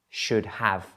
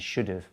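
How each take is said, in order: First: Have is pronounced fully as a separate word. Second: Have is reduced and joined to should. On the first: "the longer form" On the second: "rather than"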